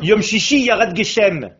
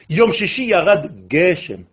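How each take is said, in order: First: It is said with a French accent. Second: It is said with native Hebrew word stress.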